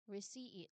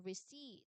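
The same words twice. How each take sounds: First: The second syllable has two separate vowel sounds. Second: The second syllable has one smooth long vowel. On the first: The speaker calls it wrong. "So it's not so, two separate vowels. We do not say receipt" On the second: The speaker calls it right. "So it's one smooth long E"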